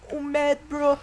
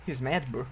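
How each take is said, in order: First: High, loud singsong taunt; mocking taunt. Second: Said in the usual way. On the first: Real, not acted. Gamer mocking an enraged enemy player, mocking taunt. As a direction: tease the angry enemy.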